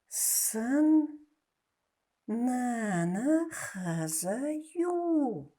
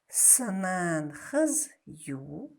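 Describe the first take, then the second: First: Every syllable is pronounced in full. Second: Syllables are dropped and run together. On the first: "как мы пишем" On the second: "как нужно говорить"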